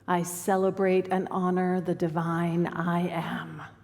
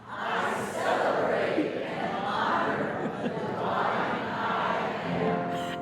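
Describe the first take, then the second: First: It is said in a plain, calm tone. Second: It is said in a fun, playful tone.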